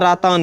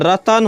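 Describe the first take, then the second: First: The vowels in the word are long. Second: The vowels in the word are short. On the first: The speaker calls it wrong. "रातान नहीं होता" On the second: The speaker calls it right. "तो रतन होता है"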